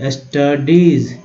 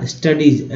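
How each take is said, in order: First: "studies" slow, split into syllables; broken-down pronunciation. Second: Said in the usual way. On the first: Shown as a demonstration. Teacher repeating a word for learners, slow syllable-by-syllable "studies". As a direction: stretch "studies" as s-ta-deez. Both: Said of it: "ऐसे तोड़ के पढ़ना है".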